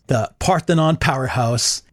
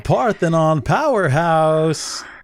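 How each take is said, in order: First: It is said in his normal voice. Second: It is said like a boxing announcer.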